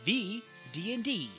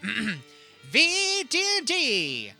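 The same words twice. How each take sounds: First: It is read flatly, without excitement. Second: It is read loudly with excited energy. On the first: The speaker calls it wrong. "exclamation point" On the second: The speaker calls it right. "I guess I should read that differently"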